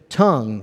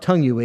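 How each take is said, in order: First: The word ends cleanly on the ng sound. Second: The word ends with an added ee sound. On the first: The speaker calls it right. "it's just tongue. Leave the U-E off of it" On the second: The speaker calls it wrong. "it's not tongue-y"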